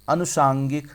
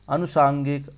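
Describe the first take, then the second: No difference in how they are said.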